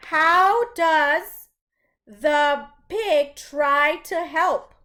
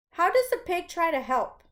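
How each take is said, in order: First: Slow, louder reading of the question; question read aloud. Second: Said in the usual way. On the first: Shown as a demonstration. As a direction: read it out clearly for the class. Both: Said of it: "the first question reads".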